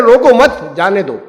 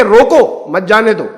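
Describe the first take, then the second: First: روکو مت run together, then جانے دو; pause after مت. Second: روکو set apart, then مت جانے دو run together; pause after روکو. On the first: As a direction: break after مت, joining it to روکو. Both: Shown as a demonstration. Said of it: "دو طریقے سے لوگ انٹرپریٹ کر سکتے ہیں".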